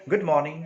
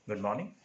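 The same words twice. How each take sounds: First: Loud, higher cried greeting. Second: Softer, sugary, drawn-out "Good morning"; sweet affected drawl. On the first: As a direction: call the greeting out brightly. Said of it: "she cried". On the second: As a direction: purr the greeting with put-on sweetness. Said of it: "in a sweet, affected drawl". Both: A narrator's reading.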